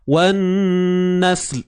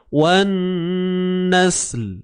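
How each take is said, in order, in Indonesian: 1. Bunyi akhirnya ditahan dan diputus. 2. Bunyi akhirnya tidak sepenuhnya dilepas dan tidak sepenuhnya terputus. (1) "Nak kita tertahan" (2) "Dia macam tergantung bunyi dia"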